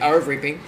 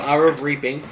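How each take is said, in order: First: The phrase is said quickly, with words run together. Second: The phrase is said at a normal, careful pace.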